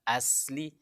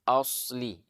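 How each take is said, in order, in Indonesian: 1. Bunyi s itu tipis dan ringan. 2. Bunyi s itu tebal dan berat. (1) "dia tidak bilang asli" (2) "tapi asli ... kalau pakai huruf sod"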